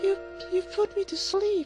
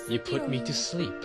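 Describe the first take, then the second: First: It is said in a put-on girlish voice. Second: It is said in the speaker's natural voice.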